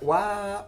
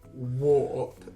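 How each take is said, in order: First: The vowel is a short 'ah' sound, like wap. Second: The vowel is an 'or' sound, like warp. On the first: "the way she's saying it, wap" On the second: "I would pronounce this word warp"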